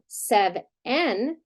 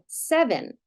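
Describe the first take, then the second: First: The second vowel is a full vowel. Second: The second vowel is a reduced schwa. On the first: The speaker calls it wrong. "We're not saying sev-en" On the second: The speaker calls it right. "we're saying seven. So we're flexing to that I sound"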